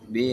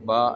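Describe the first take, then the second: First: The vowel is an e sound. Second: The vowel is an a sound. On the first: "பே என்று மொழிவாங்க" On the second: "லேசான மாதிரி பா என்பதாக நாங்கள் மொழிஞ்சு கொள்ளலாம்"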